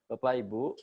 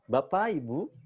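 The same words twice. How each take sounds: First: It is said flatly at an even tempo. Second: It is said lively with varied pitch and tempo. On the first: The speaker calls it wrong. "temponya jangan datar-datar saja. Contohnya misalkan begini" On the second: The speaker calls it right. "beda dengan yang seperti itu"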